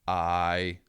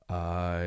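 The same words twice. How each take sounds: First: It is higher and brighter in tone. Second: It is low, dark and heavy in tone. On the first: "rather than I, which is a wee bit brighter" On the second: "I'd drop it an octave, so I, you get that real heft in that sound"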